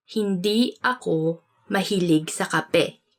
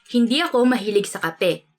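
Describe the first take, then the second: First: Slow, phrase by phrase; slow teaching repeat. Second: Said in the usual way. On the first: Shown as a demonstration. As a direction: break it up slowly for learners. Example sentence repeated slowly for learners.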